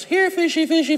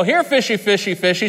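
First: Put-on much higher little-girl sing-song; little girl fish call. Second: Fish call. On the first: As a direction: call the fish like a small child. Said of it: "She goes". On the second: Shown as a demonstration. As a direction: coax the fish up. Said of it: "and you go".

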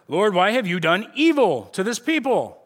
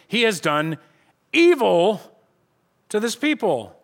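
First: Said in the usual way. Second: "evil" set off by a pause and hit much louder; stress on evil. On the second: Shown as a demonstration. Pastor stressing the verse for his church, "evil" punched loud. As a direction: lean hard into "evil". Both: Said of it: "Let's just emphasize the fact".

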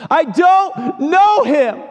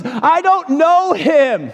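First: Very high, slow, anguished cry; preacher re-enacting Peter's denial at full pitch; straining denial. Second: High, slow, strained denial; desperate denial. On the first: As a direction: wail the denial. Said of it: "denies him three times". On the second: Acted. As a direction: push the lie out desperately. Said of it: "And he says".

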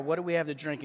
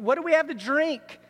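First: Low, subdued retelling of a complaint; understated, dropped-down quote; retold cry. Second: Higher-pitched plea, lightly acted; mildly exasperated crying out, imitated; mock complaint. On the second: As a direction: act out a thirsty grumble. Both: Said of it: "They're crying out".

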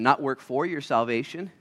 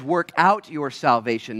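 First: "not" stretched and rising; stress on not. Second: "out" pressed and held slow; stress on out. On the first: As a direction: lean hard on "not" in "not work for your salvation". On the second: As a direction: lean on "out" in "Work out your salvation". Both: Shown as a demonstration.

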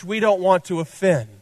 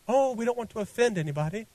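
First: Said in the usual way. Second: A hint of a British accent, quick and soft. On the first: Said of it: "where that British accent came from". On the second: Preacher mocking a church afraid to offend, light British accent. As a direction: slip lightly into a mock-British accent, softly. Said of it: "that British accent came from right then".

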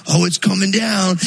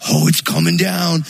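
First: Put-on boys yelling again, thrilled, as it falls; excited kids. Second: Put-on louder, eager boys cheering the tree falling; mock the boys' excited shout as the trunk cracks; excited kids. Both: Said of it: "and they're like".

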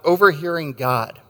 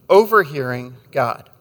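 First: Said in the usual way. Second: Overhearing God slowed, each word given weight; slow, weighty repeat. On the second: Shown as a demonstration. Preacher repeating his sermon title, slow and weighty. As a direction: let Overhearing God land slowly as the theme.

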